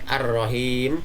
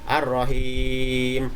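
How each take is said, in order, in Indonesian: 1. Vokal panjang hanya dibaca sebentar. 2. Vokal panjang dibaca sedang. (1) "bisa dibaca pendek"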